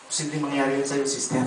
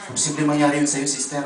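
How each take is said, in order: First: Soft assurance. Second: Said in the usual way. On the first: Real, not acted. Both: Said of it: "repeated blessing declaration".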